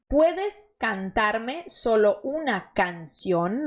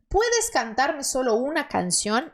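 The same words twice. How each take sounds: First: The sentence is said more slowly. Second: The sentence is said at normal speed.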